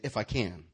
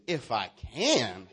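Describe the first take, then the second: First: Said in the usual way. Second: Slow, drawn-out sass; with attitude. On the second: Shown as a demonstration. Preacher shows congregation how to say it, with attitude. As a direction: stretch it out with a swooping attitude. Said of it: "Now say it with attitude".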